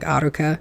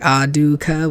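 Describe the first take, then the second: First: The middle consonant is a flapped R. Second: The middle consonant is a D sound. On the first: The speaker calls it right. "a flipped R" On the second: The speaker calls it wrong. "with like a D"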